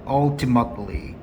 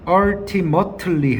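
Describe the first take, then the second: First: "ultimately" in an American accent, slowly; slow American-style "ultimately"; American pronunciation. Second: "ultimately" with every t fully sounded; non-American pronunciation. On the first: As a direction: model American "ultimately" with a reduced middle t. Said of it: "쌤 미국식 발음할게요". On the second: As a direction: say "ultimately" syllable by syllable, unreduced. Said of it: "해도 되지만 쌤 미국식 발음할게요". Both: Shown as a demonstration.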